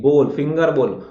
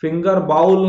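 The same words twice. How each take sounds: First: बोल, finger बोल with pure long 'o'; slow corrective बोल, falling at the end; correct pronunciation. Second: finger बाउल, slow, with 'ow' in बाउल; wrong pronunciation. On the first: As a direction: model finger बोल without an 'ow' glide. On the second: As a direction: drag the 'au' glide of finger बाउल. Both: Shown as a demonstration. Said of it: "finger बाउल नहीं".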